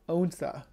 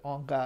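First: The middle consonant is an s sound. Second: The middle consonant is a k sound. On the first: This is how the other person says it. "you're saying so Onsa" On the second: This is the westernized form the speaker always used. "I always said Onka"

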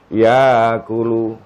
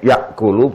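First: The glottal stop is replaced by a long a vowel. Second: A glottal stop is pronounced before the k. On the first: "Boleh kalian ganti dengan alif" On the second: "Tetap hamzae yakulu boleh"

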